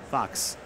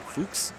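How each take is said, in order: First: The name is said like the word fox. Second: The name is said like the name Fuchs. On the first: The speaker calls it wrong. "But it's not really" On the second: The speaker calls it right. "it's pronounced, it's like Fuchs"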